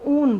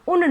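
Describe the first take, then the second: First: The vowel is long and drawn out. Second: The vowel is short and clipped. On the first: The speaker calls it right. "इसको आप हमेशा ऊन बोलते हैं" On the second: The speaker calls it wrong. "इसको आप उन नहीं बोलते"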